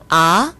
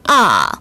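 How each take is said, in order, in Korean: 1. 음이 낮은 데서 높은 데로 올라가요. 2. 음이 높은 데서 낮은 데로 뚝 떨어져요. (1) "이성은 아, 아 올라갔죠?" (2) "사성은 아, 아 이렇게 뚝 떨어집니다"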